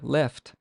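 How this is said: It is said with an English vowel and L. "this word in English is left"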